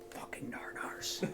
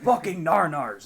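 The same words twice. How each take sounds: First: It is said more quietly. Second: It is said more loudly.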